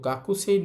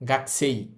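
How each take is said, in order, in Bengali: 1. k-এর পরের স্বরধ্বনিটি স্পষ্ট উচ্চারিত হয়। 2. k-এর পরের স্বরধ্বনিটি বাদ যায়। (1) "গাকুসেই না হয়" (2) "এটার উচ্চারণ হবে গাকসেই"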